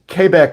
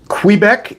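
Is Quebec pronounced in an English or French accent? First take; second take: French; English. First: It is pronounced with a French accent. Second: It is pronounced with an English accent. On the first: "in French" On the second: "in English"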